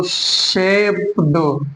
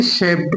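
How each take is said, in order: First: शेप दो with a voiced D tacked on; wrong pronunciation. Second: शेप ending in a T sound; correct pronunciation. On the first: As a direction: stretch शेप, then a separate D ending. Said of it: "नहीं बोलेंगे". (गलत उच्चारण, शेप के बाद 'ड' की आवाज़) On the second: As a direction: close शेप with a crisp added T. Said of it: "बल्कि शेप पढ़ेंगे". (सही उच्चारण, शेप के अंत में 'ट') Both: Shown as a demonstration.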